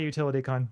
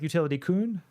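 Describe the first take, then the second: First: The last word has an open 'o' vowel. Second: The last word has an 'oo' vowel. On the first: "I'm probably uh, mispronouncing it" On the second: "Like more of an oo sound?"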